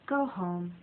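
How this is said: It is said in a gentle, caring tone. The listener has worked enough and should rest. "The second way could be said to a coworker who's at the office very late"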